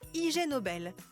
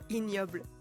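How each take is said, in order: First: It is said as two separate words. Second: It is said as one French word.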